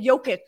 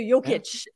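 First: The name ends without a 'cha' sound. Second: The name ends with a 'cha' sound. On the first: "I used to be like" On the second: "so it ends on the cha"

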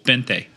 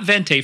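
First: The word begins with a B sound. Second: The word begins with a V sound. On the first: The speaker calls it right. "it's actually spelled with a V, but it's pronounced with a B" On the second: The speaker calls it wrong. "Not Vente for you Starbucks people"

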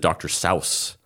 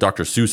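First: The name is said the way its owner intended. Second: The name is said the way people commonly say it. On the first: This is how the name was originally meant to sound. "the actual way you're supposed to say it is" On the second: This is how the public came to say the name. "But people said"

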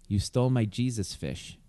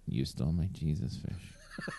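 First: It is said in the speaker's plain voice. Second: It imitates the character's own voice and manner.

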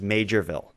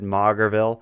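First: The name begins with the sound 'major'. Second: The name begins with the sound 'mauger'. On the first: The speaker calls it right. "The actual place name is Majorville" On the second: The speaker calls it wrong. "I certainly said Maugerville"

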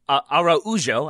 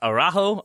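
First: The name is said with a Brazilian pronunciation. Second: The name is said with an English pronunciation. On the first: The speaker calls it right. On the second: The speaker calls it wrong.

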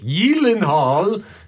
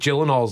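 First: The name begins with a Y sound. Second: The name begins with a J sound.

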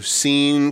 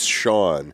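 First: The name is said like 'seen'. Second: The name is said like 'shawn'. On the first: The speaker calls it wrong. "Which is what every teacher called me" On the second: The speaker calls it right. "it's Sean"

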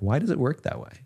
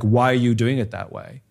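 First: It sounds genuinely curious and open. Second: It sounds accusing and confrontational.

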